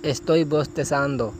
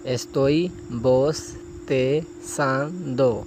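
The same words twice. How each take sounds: First: Said in the usual way. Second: Estoy bostezando drawn out syllable by syllable; very slow model phrase. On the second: Shown as a demonstration. Teacher models a Spanish phrase very slowly for students. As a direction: stretch each sound for the learner. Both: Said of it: "اسی طرح آگے ہے".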